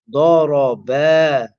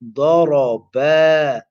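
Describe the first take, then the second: First: The final vowel is stretched long. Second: The final vowel is stretched long.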